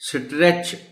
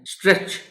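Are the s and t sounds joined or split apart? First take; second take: split; joined. First: The s and t are pulled apart. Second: The s and t form one sound. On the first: The speaker calls it wrong. "Quite possible कि वो बच्चे इसको इस तरह pronounce करें" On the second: The speaker calls it right. "ये एस और टी को आपने एक ही साउंड में बोलना है"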